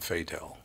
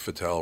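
First: The name is said like the English word fatal. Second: The name is said the French way. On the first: "It sounds like fatal" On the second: "It sounds like maybe French or something"

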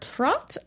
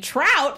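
First: The vowel sounds like the one in 'hot'. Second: The vowel sounds like the one in 'out'. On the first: The speaker calls it right. "but it's actually more Trot" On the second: The speaker calls it wrong. "we were saying Trout, that's a terrible name"

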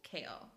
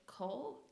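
First: The name is said with an 'ay' vowel. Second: The name is said with an 'oh' vowel. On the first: The speaker calls it right. "There's the book pronunciation guy claims it's Kale" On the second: The speaker calls it wrong. "you keep saying Cole and it threw me off"

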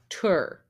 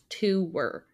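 First: The word is said as one syllable. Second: The word is said as two syllables. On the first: "the dictionary way of saying it is tour" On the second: "like it's two different words"

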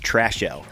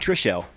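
First: The first syllable sounds like 'trash'. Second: The first syllable sounds like 'trish'. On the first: The speaker calls it right. "it's Trashel" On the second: The speaker calls it wrong. "Not Trishel"

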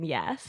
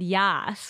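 First: The vowel is a plain 'e' sound, 'yes'. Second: The vowel is an open 'a' sound, 'yas'. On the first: It is the ordinary word of agreement. "slightly different than yes" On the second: It is the slang word of enthusiastic approval. "It's YAS"

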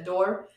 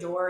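First: The vowel is drawn out with an extra sound. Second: The vowel is plain, without extra length.

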